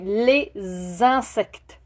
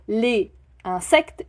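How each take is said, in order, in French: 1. Les deux mots sont liés par un son de liaison [z]. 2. Les deux mots se prononcent sans liaison en [z]. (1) "je dis ... on les lie ensemble" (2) "je ne dis pas"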